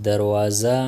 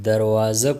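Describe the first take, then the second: No difference in how they are said.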